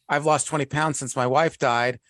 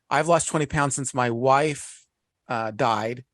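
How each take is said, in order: First: It is said straight through without a pause. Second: It is said with a pause in it. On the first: The punchline comes at once, without suspense. The speaker calls it wrong. "if I say it like right away" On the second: The listeners wonder what comes next. The speaker calls it right. "But if I pause"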